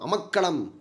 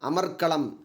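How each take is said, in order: First: There is no r sound before the k. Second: An r sound comes before the k. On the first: This is the spoken, colloquial form. "அமக்களம்ன்றது பேச்சு வழக்கு சொல்" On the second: This is the pure, formal form. "அமர்க்களம் தான் தூய தமிழ் சொல்"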